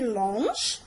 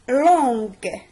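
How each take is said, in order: First: The g is soft, like the s in measure. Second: The g is hard, like the g in go. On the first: The speaker calls it wrong. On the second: The speaker calls it right.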